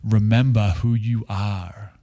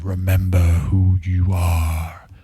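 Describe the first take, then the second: First: It is said in a normal voice. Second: It is said in a deep, epic voice.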